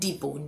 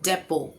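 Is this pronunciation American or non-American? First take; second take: American; non-American. First: It is said in an American way. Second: It is said in a non-American way.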